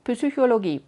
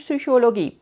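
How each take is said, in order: The two takes are said the same way.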